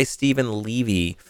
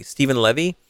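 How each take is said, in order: First: "Levy" said LEE-vee, with a long e; first-guess pronunciation. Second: "Levy" said LEV-ee, with a short e; settled pronunciation. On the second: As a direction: settle on "Levy" rhyming with "bevy". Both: Shown as a demonstration. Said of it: "say it Levy or Levy".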